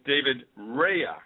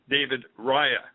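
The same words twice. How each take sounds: First: The name is said with an English pronunciation. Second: The name is said with an Italian pronunciation. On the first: "some of you may know him as" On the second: "the proper Italian pronunciation"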